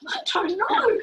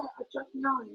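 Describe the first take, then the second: First: High-pitched, clueless retort; retold bafflement. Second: Said in the usual way. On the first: Learner answering her family about French, baffled.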